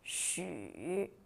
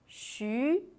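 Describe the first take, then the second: First: The pitch dips low then rises. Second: The pitch rises from mid to high.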